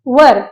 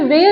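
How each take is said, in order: First: The vowel sounds like the one in 'fur'. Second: The vowel sounds like the one in 'hair'. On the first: The speaker calls it right. "इसकी exact pronunciation होती है वर" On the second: The speaker calls it wrong. "ये वेर नहीं होता है"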